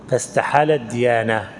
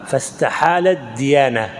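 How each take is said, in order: Both takes have the same delivery.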